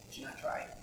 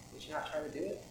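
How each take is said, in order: First: Soft breathy echo of the question; whispered repeat of "Would you not try it?". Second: Said in the usual way. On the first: Shown as a demonstration. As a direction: drop to a whisper to let it sink in.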